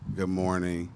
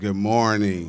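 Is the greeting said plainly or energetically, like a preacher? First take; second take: plainly; energetically. First: It is said in a plain, ordinary way. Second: It is said loudly and energetically, like a preacher.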